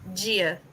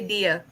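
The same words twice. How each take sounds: First: It begins with a J-like sound, Brazilian style. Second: It begins with a hard D, European style.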